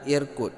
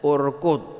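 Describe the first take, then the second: First: The word begins with an i vowel. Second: The word begins with a u vowel. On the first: The speaker calls it wrong. "dan bukan irkud" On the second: The speaker calls it right. "Jadi kita bacanya urkud"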